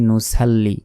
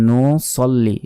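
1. s ধ্বনিটি সাধারণ ও হালকা। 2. s ধ্বনিটি ভারী ও জোরালো। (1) "অনেকে বলি নুসাল্লি" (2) "বলতে হবে নো সল্লি, সদ লাম জবর হয়"

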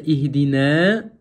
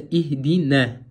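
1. Конечная гласная произносится долго. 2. Конечная гласная остаётся краткой. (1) "вместо ихдина" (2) "остается ихдина, без удлинения"

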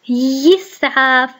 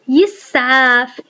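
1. تبدأ الكلمة بصوت الياء. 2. تبدأ الكلمة بصوت الياء.

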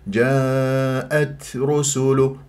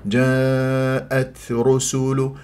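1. صوت التاء فيه همس خفيف ولطيف. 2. صوت التاء فيه همس خفيف ولطيف.

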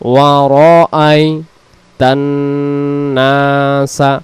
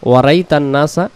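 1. র-এর পরে একটি দীর্ঘ স্বর উচ্চারিত হয়। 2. র-এর পরের দীর্ঘ স্বরটি বাদ দেওয়া হয়। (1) "উচ্চারণ হবে ওয়া র আই" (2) "এই অক্ষরটা বাদ চলে যাচ্ছে"

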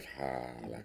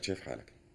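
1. تقليد متكلف ومبالغ فيه للهجة البدوية. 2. لهجة بدوية طبيعية لها لحنها الخاص. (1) "بشوف واحد بيحكي بدوي ... البدوي مش معاق" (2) "البدوي بقول لك"

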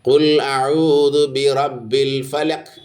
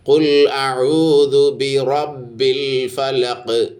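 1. അവസാനത്തെ q ശബ്ദം പരന്ന് മുറിച്ചതാണ്, കുതിപ്പില്ലാതെ. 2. അവസാനത്തെ q ശബ്ദം പ്രതിധ്വനിയുള്ള കുതിപ്പോടെ വിടുന്നു. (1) "എന്നോതരുത്" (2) "ഈ ഖാഫ് ഖുതുബ് ജദാണ്"

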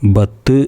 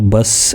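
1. അവസാന "t" ശ്വാസമില്ലാതെ പെട്ടെന്ന് മുറിയുന്നു. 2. അവസാന ശബ്ദം "s" ആയി മാറുന്നു. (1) "ബത്ത് എന്ന് പറയരുത്" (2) "ബസ് എന്നാകാനും പാടില്ല"

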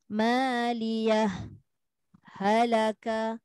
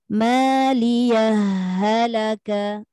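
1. Ada jeda diam singkat yang memisahkan kedua kata. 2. Huruf h di akhir langsung menyatu dengan kata berikutnya. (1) "jika berlaku saktah, maka tidak boleh dibaca dengan idgham" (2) "sambung dengan bacaan idgham. Memasukkanlah maksudnya"

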